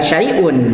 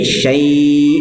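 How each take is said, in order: First: The word ends with an un sound. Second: The word ends without the un sound. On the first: The speaker calls it wrong. "kalaupun diwakofkan ini dibacanya nggak syai'un" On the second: The speaker calls it right. "jadi syai' begitu kan ya"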